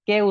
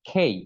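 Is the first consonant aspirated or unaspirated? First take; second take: unaspirated; aspirated. First: The first consonant is an unaspirated k. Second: The first consonant is an aspirated kh. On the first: The speaker calls it wrong. "কে উচ্চারণ করি" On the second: The speaker calls it right. "খেই মানে খর উচ্চারণ হবে"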